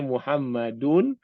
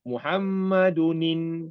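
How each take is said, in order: First: The word ends plainly in -un. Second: The word ends with an added linking -in. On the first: "dia Muhammadun" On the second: "kemudian jumpa Hamzah wasal ni, nanti kita Muhammadunin"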